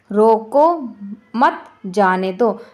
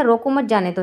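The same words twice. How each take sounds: First: "रोको", long pause, then slow "मत", "जाने दो"; pauses for meaning. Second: "रोको मत जाने दो" run together without a break; no pause. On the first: Teacher showing the second meaning, "रोको मत जाने दो" slowly split by pauses. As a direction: break "रोको मत जाने दो" slowly into separate chunks. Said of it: "और दूसरा क्या है". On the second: Teacher showing a sentence without punctuation, "रोको मत जाने दो" with no pause. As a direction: say "रोको मत जाने दो" straight through, no stops. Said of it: "यहाँ पर हम बिल्कुल रुके भी नहीं हैं". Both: Shown as a demonstration.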